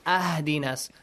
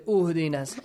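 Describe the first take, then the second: First: The word begins with an a vowel. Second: The word begins with a u vowel. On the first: "do not say ahdinas" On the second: "Do not say uhdinas"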